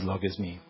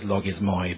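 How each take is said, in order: First: The word ends with an 'ee' sound. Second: The word ends with an 'oy' sound. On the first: This is how modern Greek speakers say it. "in modern Greek we pronounce that as logismi" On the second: This is how the word is written. "I know it says logismoi"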